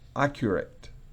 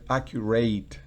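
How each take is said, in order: First: The ending is a short, unstressed 'it' sound. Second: The ending is a full, clear 'ate' sound. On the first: The speaker calls it right. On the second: The speaker calls it wrong.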